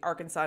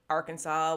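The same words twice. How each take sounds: First: The word is said the outside way. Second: The word is said the local way. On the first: This is how people elsewhere say it. "will have to be" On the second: This is how people from here say it. "those born and raised here"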